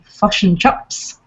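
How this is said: Said in a New Zealand accent with centralized vowels. "Kiwi say fosh and chops"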